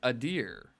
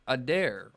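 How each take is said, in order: First: The second syllable sounds like 'deer'. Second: The second syllable sounds like 'dare'. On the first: "everyone pronounces it pronounces it as a deer" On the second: "how I always imagined it was like an elf"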